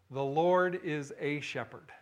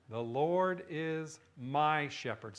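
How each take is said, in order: First: Slow, weight on "a shepherd"; the preacher gives the wrong opening of the psalm, slowly, leaning on "a"; wrong version. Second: Slow, lean on "my"; the preacher gives the psalm's true opening, slowly, stressing "my". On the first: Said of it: "How does he begin it". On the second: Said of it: "Not a shepherd". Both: Shown as a demonstration.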